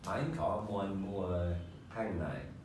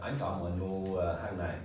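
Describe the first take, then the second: First: The sentence is said slowly. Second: The sentence is said fast.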